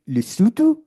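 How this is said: The name is said with a South African accent.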